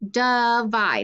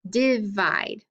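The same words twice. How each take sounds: First: The first vowel is a weak uh sound. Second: The first vowel is a short i sound. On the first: The speaker calls it right. "the I makes the schwa sound" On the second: The speaker calls it wrong. "make it a short I"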